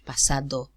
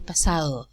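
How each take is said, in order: First: The d is a full stop with tongue contact. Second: The d is a soft fricative without contact. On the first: The speaker calls it wrong. "So we don't say in Spanish pasado" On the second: The speaker calls it right. "We say pasado. ... There's no contact"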